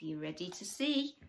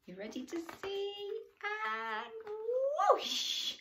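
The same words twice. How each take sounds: First: Said in the usual way. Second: Much higher, sing-song; high excited voice. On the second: Real, not acted. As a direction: ask it up high and eager.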